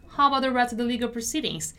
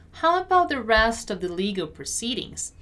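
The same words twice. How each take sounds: First: Fast, linked-up natural read; conversational-speed model sentence; quicker repeat. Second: Careful, measured teaching read; deliberate pronunciation model. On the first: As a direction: say it briskly in one flow. Teacher repeats at quicker pace. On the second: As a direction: spell out each word at a learner's pace. Teacher models sentence slowly first. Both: Shown as a demonstration.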